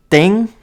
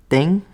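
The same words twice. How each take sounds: First: "Ding" louder and higher with a rising tune, the guy's wrong version; imitating mispronunciation. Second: "Ding" with a rising question tune, a mock Ecuadorian guy's try at "Tim"; imitating mispronunciation. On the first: The guy repeating the name wrong, louder mock rising. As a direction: throw back the guy's confident wrong "Ding". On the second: Mimicking the Ecuadorian guy who can't say Tim, mild rising mock. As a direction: echo the guy's rising "Ding" as if he's unsure. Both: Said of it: "could not pronounce my name".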